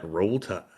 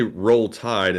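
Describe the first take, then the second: First: "Roll Tide" in a Southern Alabama accent, "Tide" as "Tahd"; "Roll Tide" with a light mock Alabama accent, "Tide" flattened to "Tahd". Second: Said in the usual way. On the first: Shown as a demonstration. Streamer demos the inside-joke Alabama accent, light mock Southern. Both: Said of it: "like, accent".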